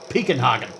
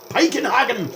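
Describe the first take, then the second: First: Said in the usual way. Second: High loud mock-German yell of Piekenhagen; yelled with funny accent. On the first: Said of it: "fun to yell ... with a funny accent". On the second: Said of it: "it's just fun to yell his name".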